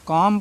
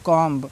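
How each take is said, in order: First: The word ends on m with b silent. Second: The word ends with an audible b sound. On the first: The speaker calls it right. "कॉम पढ़ना है" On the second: The speaker calls it wrong. "बहुत से बच्चे इसको क्या पढ़ते हैं, कॉम्ब पढ़ देते हैं"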